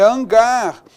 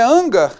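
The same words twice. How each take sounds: First: "hangar" stressed on the final GAR; correct stress. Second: "hangar" stressed on the first syllable HAN; wrong stress. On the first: Teacher correcting to hangar, stress on GAR. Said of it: "é hangar". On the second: Teacher showing the mistake, hangar stressed on HAN. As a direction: say HÂN-gar, front-stressed "hangar". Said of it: "não é hangar". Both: Shown as a demonstration.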